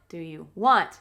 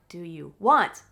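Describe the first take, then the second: No difference in how they are said.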